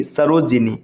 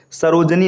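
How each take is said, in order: First: सरोजिनी said lower, as "saro-ji-nee"; correct middle vowel. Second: सरोजनी said as "saroj-nee"; wrong middle vowel. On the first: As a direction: sound a clear "ji" in सरोजिनी. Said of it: "ये शुद्ध रूप है". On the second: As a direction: leave out the i after j in सरोजनी. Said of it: "नहीं". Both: Shown as a demonstration.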